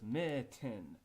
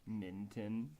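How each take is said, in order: First: No n sound comes before the t. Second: An extra n sound comes before the t. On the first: The speaker calls it right. "So it's mitten" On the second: The speaker calls it wrong. "you're saying minton. I don't see an extra N there"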